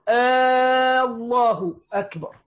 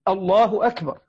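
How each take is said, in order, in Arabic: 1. يرتفع الصوت في النهاية مثل السؤال. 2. ينخفض الصوت في النهاية، ثابتًا وحاسمًا. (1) "فيتساءل بدل ما يجزم" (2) "والتكبير جزم"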